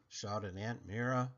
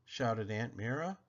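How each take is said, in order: Both takes have the same delivery.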